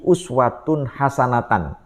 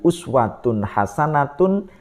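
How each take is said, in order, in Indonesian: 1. Kata terakhir berakhir dengan vokal 'an'. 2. Kata terakhir berakhir dengan vokal 'un'. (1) "diucapkan dengan cara satu salah harokat" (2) "Dia harusnya kan"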